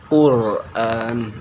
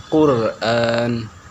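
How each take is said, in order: Both takes have the same delivery.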